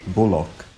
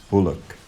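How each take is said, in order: No difference in how they are said.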